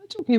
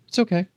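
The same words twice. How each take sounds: First: It is said in a high-pitched soothing voice. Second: It is said in a normal adult pitch. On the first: "the daddy voice" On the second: "the adult voice is out"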